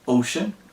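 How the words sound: The name is said with an English pronunciation.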